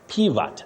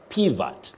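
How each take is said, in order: First: The second vowel is a weak 'uh' sound. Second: The same.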